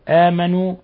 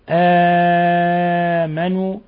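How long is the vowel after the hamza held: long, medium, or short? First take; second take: short; medium. First: The vowel after the hamza is held short. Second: The vowel after the hamza is held medium-long. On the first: "بأوجه ثلاثة" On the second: "بأوجه ثلاثة"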